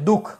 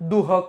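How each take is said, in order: First: No h sound is heard before the kh. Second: A clear h sound is heard before the kh. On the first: The speaker calls it right. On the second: The speaker calls it wrong.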